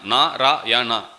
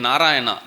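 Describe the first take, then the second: First: NARAYANA slowly broken into Na, ra, ya, na; syllable by syllable. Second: Said in the usual way. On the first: Shown as a demonstration. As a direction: say "Narayana" slowly with a gap after each syllable. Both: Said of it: "How many syllable?".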